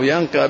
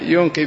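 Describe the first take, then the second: First: The first syllable has an 'a' vowel. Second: The first syllable has a 'u' vowel. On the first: The place being washed is the subject. "ينقى بالفتح يكون عائد على المحل" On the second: The one doing the washing is the subject. "ينقي بالضم يكون الضمير عائد على الغاسل"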